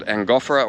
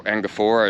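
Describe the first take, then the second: First: Angophora with the beat on GOPH; stress on second syllable. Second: Angophora with the beat on PHOR; stress on later syllable. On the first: Asking the ranger the tree's name, Angophora stressed an-GOPH-ora. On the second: Offering the ranger another version, Angophora stressed ango-PHOR-a. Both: Shown as a demonstration. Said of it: "what emphasis you wanna put on which syllable".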